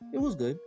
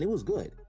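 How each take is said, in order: First: It is said with flat, lukewarm inflection. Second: It is said with eager, enthusiastic inflection. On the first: The film was only okay. "you can hear the inflection where it's like, eh" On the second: The film was truly great. "I wouldn't be like, man"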